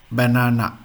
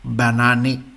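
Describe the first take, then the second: First: Said in the usual way. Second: "Banane" ending in a sounded "eh"; pronuncia tedesca. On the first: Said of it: "like the English word". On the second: Shown as a demonstration. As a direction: say "Banane" as the German word, final e voiced. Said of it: "Same in German is".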